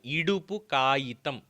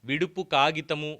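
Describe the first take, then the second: First: It begins without v and ends in kayitam. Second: It begins with v and ends in kagitamu. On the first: The speaker calls it right. "చాలా స్పష్టంగా తెలుగులోనే పలుకుతున్నానండి" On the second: The speaker calls it wrong. "ఇలా కాదు"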